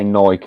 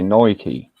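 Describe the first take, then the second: First: It is said with a British pronunciation. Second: It is said with an American pronunciation. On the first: "we say" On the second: "they say"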